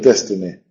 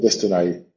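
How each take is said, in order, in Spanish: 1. La última sílaba termina en un sonido 'ee'. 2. La última sílaba termina en un sonido 'eye'. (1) "que hoy en día sería destiny" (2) "Que se pronunciaría algo así"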